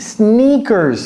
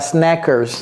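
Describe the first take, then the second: First: The first vowel is a long 'ee' sound. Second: The first vowel is a short 'e' sound. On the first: The speaker calls it right. "Ici, c'est sne. I" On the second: The speaker calls it wrong. "C'est E, n'est-ce pas? ... Non, non, non"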